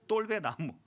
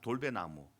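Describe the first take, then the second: First: The first consonant is hard and tense. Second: The first consonant is soft and plain.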